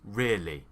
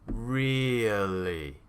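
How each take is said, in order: First: The word is said quickly in two syllables. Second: The word is said slowly and carefully.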